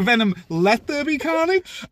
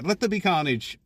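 First: It rises at the end like a question. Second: It falls at the end like a statement.

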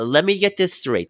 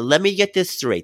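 First: It is said in the rabbi's put-on accent. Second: The same.

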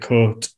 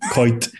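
First: It is said with a standard vowel. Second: It is said with a Yorkshire vowel.

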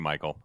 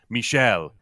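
First: The name is said the English way, as Michael. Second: The name is said the French way, as Michelle. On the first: "or it could just be Michael" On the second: "maybe it's like the French pronunciation"

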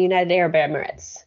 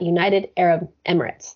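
First: The words are mumbled and run together. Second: The words are clearly and carefully articulated. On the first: The speaker calls it wrong. "So I just mumbled that" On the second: The speaker calls it right. "There you go"

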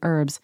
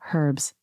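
First: The initial H sound is silent. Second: The initial H sound is pronounced. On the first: This is how most people say it in America. "In America, most people say herbs" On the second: This is how it is said in Europe. "that is the way you can pronounce it in Europe"

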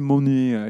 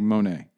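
First: The name is said with a French pronunciation. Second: The name is said with an English pronunciation. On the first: "You don't have to say Monet" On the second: "you could say Monet. It's fine"

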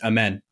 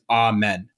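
First: The stress is on the second syllable. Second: The stress is on the first syllable. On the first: The speaker calls it right. "he always says amen" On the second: The speaker calls it wrong. "everybody says amen"

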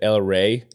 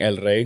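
First: It is said with an American English pronunciation. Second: It is said with a native Spanish pronunciation. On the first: The speaker calls it wrong. "I just can't believe I said El Rey" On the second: The speaker calls it right. "That's like the right way to say it"

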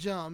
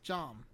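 First: The vowel sounds like the one in 'cup'. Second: The vowel sounds like the one in 'cat'. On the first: The speaker calls it wrong. "It's not jum" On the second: The speaker calls it right. "It's jam. There's an A there, not a U"

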